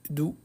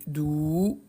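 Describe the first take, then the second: First: "Dou" with a short vowel; teacher's short demo syllable "Dou". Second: "Dou" with the vowel drawn right out; teacher stretching "Dou" into a long syllable. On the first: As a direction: say "Dou" briefly, no held vowel. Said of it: "je vais ajouter des voyelles courtes". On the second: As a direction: hold the ou of "Dou" long and slow. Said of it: "je vais rajouter des voyelles longues". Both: Shown as a demonstration.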